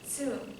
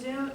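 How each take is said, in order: First: The word begins with a ts sound. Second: The word begins with a plain z sound. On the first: The speaker calls it right. "it's actually going to be zoom. So we have a T and an S" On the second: The speaker calls it wrong. "the word that looks like zoom"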